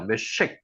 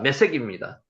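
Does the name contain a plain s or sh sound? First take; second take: sh; plain s. First: The name has an sh sound. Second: The name has a plain s sound.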